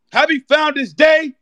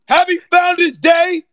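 First: Festive shout. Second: Louder festive shout. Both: Real, not acted. Fraternity shout-out.

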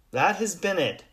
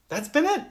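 First: «That» hit firmly, falling to a flat final «it»; stress on THAT. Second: «it» pitched sharply up in a rising question; stress on IT. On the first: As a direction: punch «That» and land it down. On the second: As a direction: lift «it» high, like doubting. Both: Shown as a demonstration.

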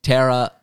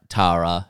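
First: Tara as TERR-a, vowel as in "terror"; show's pronunciation of Tara. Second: Tara as TAH-ra, with an open "ah"; own-accent pronunciation of Tara. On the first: Podcaster trying the cast's version of the name, Tara as TERR-a. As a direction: say Tara with an "eh" in front. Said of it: "they all pronounce, like, Tara". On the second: Podcaster switching to the local version of the name, Tara as TAH-ra. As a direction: say Tara with a long open first A. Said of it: "my accent says Tara". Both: Shown as a demonstration.

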